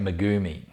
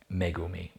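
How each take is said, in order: First: The name is said with an English pronunciation. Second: The name is said with a Japanese pronunciation. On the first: "that's probably the English way of saying it, the Aussie way" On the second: "would sit better in Japanese"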